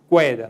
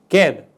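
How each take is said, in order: First: A 'w' sound follows the k sound. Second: No 'w' sound follows the k sound. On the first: The speaker calls it wrong. "nós não dizemos queda" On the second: The speaker calls it right. "nós dizemos queda"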